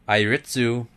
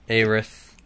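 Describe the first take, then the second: First: The name is said the Japanese way. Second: The name is said the English way.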